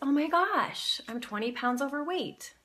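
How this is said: It is said in a surprised tone.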